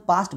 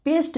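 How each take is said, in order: First: पास्ट pronounced with "aa"; correct "aa" sound. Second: पेस्ट pronounced with "e"; wrong "e" sound. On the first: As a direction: give पास्ट a long open vowel. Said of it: "इसे हम पास्ट बोलेंगे". (पास्ट को "आ" से बोलें) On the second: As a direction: give पेस्ट the vowel of "pest". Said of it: "पेस्ट नहीं पढ़ेंगे". (पेस्ट को "ए" से बोलें) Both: Shown as a demonstration.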